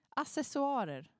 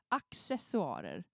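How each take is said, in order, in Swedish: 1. 'cc' uttalas som ett vanligt s-ljud. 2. 'cc' uttalas som ett k-s-ljud. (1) "folk som säger så här" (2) "det ska uttalas med K såklart"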